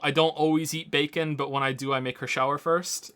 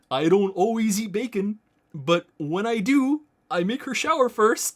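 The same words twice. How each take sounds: First: It is said in his normal own voice. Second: It is said in a put-on character voice.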